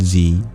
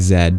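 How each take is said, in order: First: The letter is named the non-Canadian way. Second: The letter is named the Canadian way.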